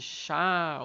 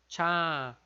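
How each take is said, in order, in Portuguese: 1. Começa com um som de 'sh' suave. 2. Começa com um som de 'tch'. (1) "não é o som de X" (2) "é como se fosse esse C H que a gente colocou um T antes"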